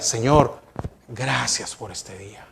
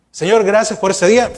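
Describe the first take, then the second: First: Much softer and lower, "gracias por este día" almost hushed; heartfelt quiet prayer. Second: Said in the usual way. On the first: Shown as a demonstration. Pastor models a sincere, hushed thanks to the Lord. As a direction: pray it gently, as if speaking only to God. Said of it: "No, yo diga". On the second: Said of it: "diferente es que yo diga".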